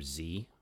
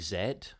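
First: The letter is said the American way, zee. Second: The letter is said the British way, zed.

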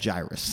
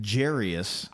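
First: The name is said not rhyming with Darius. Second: The name is said to rhyme with Darius. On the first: The speaker calls it right. "It's actually just straight up Jairus" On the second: The speaker calls it wrong. "I used to say it Jairus. ... Like Darius"

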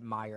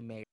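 First: The first syllable sounds like 'my'. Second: The first syllable sounds like 'may'. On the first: "it's always been an E, Oscar Mayer, because I pronounce it Mayer" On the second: "I don't say Mayer"

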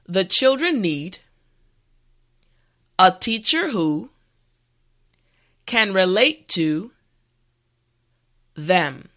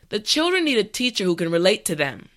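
First: It is said slowly and carefully. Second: It is said at natural speaking speed. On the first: "this time repeat after me" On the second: "this time we will go at a more natural pace"

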